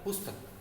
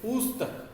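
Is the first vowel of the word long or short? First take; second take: short; long. First: The first vowel is kept short. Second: The first vowel is held long. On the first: The speaker calls it right. "प में छोटे ऊ की मात्रा है" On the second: The speaker calls it wrong. "ये प में बड़ा ऊ है तो मतलब उच्चारण लंबा होगा, तो ये गलत है। पुस्तक ये गलत है"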